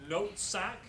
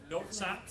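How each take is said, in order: The two takes are said the same way.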